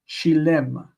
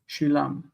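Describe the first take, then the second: First: The second vowel sounds like 'e'. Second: The second vowel sounds like 'a'. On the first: This is the modern everyday form. "with tsere in the normal pattern" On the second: This is the biblical form. "in the Bible, we don't find shilem, we find shilam"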